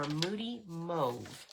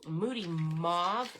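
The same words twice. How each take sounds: First: "Mauve" said as "mohv", with a long o; alternate pronunciation. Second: "Mauve" said as "mawv", with an open aw vowel; alternate pronunciation. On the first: Crafter offering viewers the other way, "Mauve" as "mohv". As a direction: say Moody Mauve with "Mauve" rhyming with "stove". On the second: Crafter offering viewers one way to say it, "Mauve" as "mawv". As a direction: say Moody Mauve with "Mauve" rhyming with "suave". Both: Shown as a demonstration. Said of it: "however you wish to say it".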